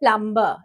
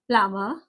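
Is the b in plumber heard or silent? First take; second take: heard; silent. First: The b sound is pronounced after the m. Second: The b sound is silent after the m. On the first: The speaker calls it wrong. "Usually हम लोग बोलते हैं प्लम्बर" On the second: The speaker calls it right. "बी silent है इसमें"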